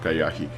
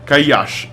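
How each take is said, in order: First: The name ends with an added 'ee' vowel. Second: The name ends on the 'sh' consonant. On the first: The speaker calls it wrong. "not Kayashi" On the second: The speaker calls it right. "Kayash, not Kayashi"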